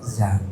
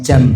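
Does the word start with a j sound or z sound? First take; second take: z sound; j sound. First: The word begins with a z sound. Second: The word begins with a j sound. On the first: The speaker calls it right. "tapi apa? Zam" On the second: The speaker calls it wrong. "bukan jam hariro"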